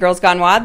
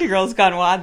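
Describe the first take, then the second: First: It is said very loudly and forcefully. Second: It is said at a moderate, calmer volume. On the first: The speaker calls it wrong. "That was super loud" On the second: The speaker calls it right. "meet in the middle"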